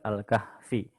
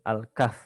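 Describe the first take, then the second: First: The word ends with an added vowel. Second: The word ends on a bare consonant. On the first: The speaker calls it wrong. "bukan Al-Kahfi" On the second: The speaker calls it right. "Al-Kahf bukan Al-Kahfi karena huruf terakhir tidak dibaca"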